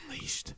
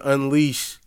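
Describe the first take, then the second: First: It is said in a whisper. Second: It is said in a normal voice.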